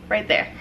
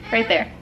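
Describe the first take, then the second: No difference in how they are said.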